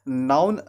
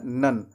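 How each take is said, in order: First: "नाउन" with an ow diphthong; wrong syllable. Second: "नन" with a short uh vowel; correct syllable. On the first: Teacher contrasts the mistake with the fix, "noun" sound. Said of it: "नाउन ना कह करके". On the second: Teacher gives the fix after "pra", short "नन". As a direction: say "नन" as nun, without ow. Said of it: "आपको कहना है नन". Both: Shown as a demonstration.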